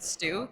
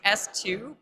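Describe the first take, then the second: First: The name is blended into a single word. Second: The name is spelled out as letter and number. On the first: "you can pronounce it stew" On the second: "It's S two"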